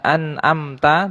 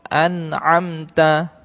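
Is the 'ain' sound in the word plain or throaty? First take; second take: plain; throaty. First: The 'ain' sound is not made in the throat. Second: The 'ain' sound is made deep in the throat. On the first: The speaker calls it wrong. "bukan dibaca an'amta" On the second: The speaker calls it right. "tapi an'amta ya. ... ainnya itu berada di tenggorokan"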